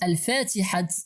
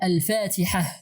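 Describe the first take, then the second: First: The word ends with a t sound. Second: The word ends with an h sound. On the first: "we write al-fatihat" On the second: "but we read al-fatihah"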